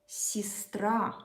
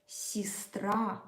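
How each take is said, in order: Both takes have the same delivery.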